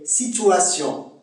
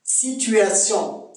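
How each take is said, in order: First: "situation" with an ou sound, si-tou-a-sion; Québécois pronunciation. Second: Said in the usual way. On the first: Shown as a demonstration. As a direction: say "situation" slowly as sitou-ation. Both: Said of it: "c'est situation".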